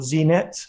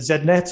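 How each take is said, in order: First: Z is said as zee, American style. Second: Z is said as zed, British style.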